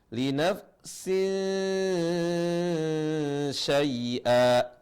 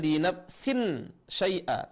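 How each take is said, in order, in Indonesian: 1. Bunyi n tersembunyi sebagai nasal sebelum sh. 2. Bunyi n diucapkan dengan jelas sebelum sh.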